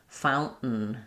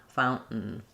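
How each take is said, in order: Both takes have the same delivery.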